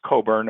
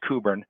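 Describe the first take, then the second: First: The name is said with an American pronunciation. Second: The name is said with a Scottish pronunciation. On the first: "the American pronunciation" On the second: "the Scottish pronunciation apparently"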